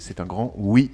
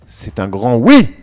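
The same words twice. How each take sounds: First: It is said calmly, at ordinary loudness. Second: It is said louder, with more emphasis.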